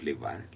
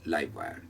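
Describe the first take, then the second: First: 'Live' has the short 'ih' vowel, like 'give'. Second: 'Live' has the long 'eye' vowel, like 'five'. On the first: The speaker calls it wrong. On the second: The speaker calls it right.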